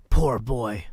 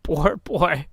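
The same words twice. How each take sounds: First: Low, loud pitying exclaim; old man pities his younger self; pitying Scrooge. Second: Loud, tearful pity. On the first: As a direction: sigh it out over the lonely child. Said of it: "I need to do the Scrooge voice". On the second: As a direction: grieve for the child he was. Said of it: "in pity for his former self". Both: Acted.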